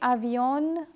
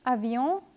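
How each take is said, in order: First: The final N is sounded out separately. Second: The ending is one nasal vowel, no N. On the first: The speaker calls it wrong. "don't say" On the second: The speaker calls it right. "but say"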